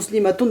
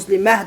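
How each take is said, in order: First: The ending is pronounced with a t sound. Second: The ending is pronounced with an h sound. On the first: The reader runs on to the next word. "o'qasak muslimatun deb o'qiymiz" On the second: The reader stops on this word. "to'xtasak muslimah deb ha bilan to'xtaymiz"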